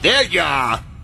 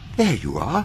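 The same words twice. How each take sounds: First: It is said with venom and contempt. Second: It is said politely and courteously.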